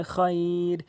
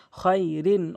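First: Slow, level "খৈর", held as at a stop; drawn-out pausal ending. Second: Said in the usual way. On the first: Shown as a demonstration. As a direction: stretch the i glide in "খৈর" before the final r. ("খৈর"-এ ই টেনে থামা) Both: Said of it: "ওয়াকফ করলে".

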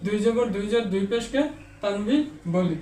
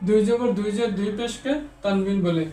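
Both takes have the same delivery.

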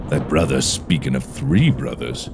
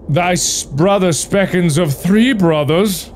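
First: Low, soft, brooding woodsman; low woodcutter voice. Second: High, lilting talking tree. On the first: Woodcutter muses over the tree's words, low and soft. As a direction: drop deep and quiet, musing. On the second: Talking tree tells the woodcutter of three brothers, high voiced. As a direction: pitch it up like a sprightly little tree. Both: Acted.

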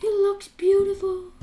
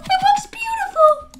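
First: Hushed awe. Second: Very high, tearful-sounding squeal; high gushing. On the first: Player admiring glowing dark armor, soft hushed awe. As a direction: soften into awed admiration. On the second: Player admiring glowing dark armor, very high gushing squeal. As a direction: squeal it as if overcome. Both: Pretend.

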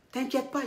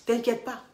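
Both takes have the same delivery.

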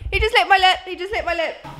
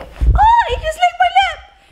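First: Laughing disbelief. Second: High, loud startled shriek; shocked squeal. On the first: Vlogger retelling the lick to camera, laughing it off. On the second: Girlfriend squealing when boyfriend licks her new lips, shocked. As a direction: squeal in real surprise. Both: Real, not acted.

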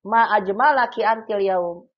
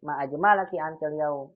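First: Louder and higher, Ma ajmalaki antil yaum with a long ma; admiring exclamation. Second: Said in the usual way. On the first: Shown as a demonstration. Teacher modelling praise of a friend's beauty, louder and higher. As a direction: compliment her with awe. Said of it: "betapa cantiknya kamu hari ini". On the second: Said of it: "Betapa cantiknya kamu hari ini".

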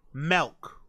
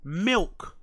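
First: "milk" said as "melk", with an eh vowel; mispronounced milk. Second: Said in the usual way. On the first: Shown as a demonstration. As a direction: say "milk" to rhyme with elk. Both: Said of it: "pronounce the word".

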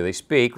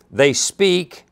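First: Said in the usual way. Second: "speak" leaned on and falling; stress on speak. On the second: Shown as a demonstration. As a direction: land firmly on "speak". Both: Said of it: "I'm emphasizing the speak there".

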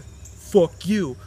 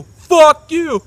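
First: Said in the usual way. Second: Higher, much louder yelled curse; dad screaming at the son who keeps asking; screamed curse. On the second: Retold or imitated. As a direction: explode it right at the son. Dad answering son, shouted take.

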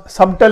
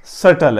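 First: "سبٹل" with the b pronounced; wrong pronunciation. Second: "سٹل" with the b left silent; correct pronunciation. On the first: Teacher summing up the common mistake, wrong pronunciation. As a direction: voice a b inside "سبٹل". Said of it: "یہ لفظ سبٹل نہیں ہے". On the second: Teacher summing up the right reading, correct pronunciation. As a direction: say "سٹل" without any b. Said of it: "سٹل ہے". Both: Shown as a demonstration.

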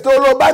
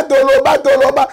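First: Said in the usual way. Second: Rising rally cry. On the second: Real, not acted. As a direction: chant it like a crowd slogan. Rallying call to speak out.

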